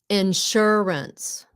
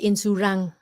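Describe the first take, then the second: First: The word ends with a clear s sound. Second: The word ends without the s sound. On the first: The speaker calls it right. "S at the end" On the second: The speaker calls it wrong. "Không phải là insurance"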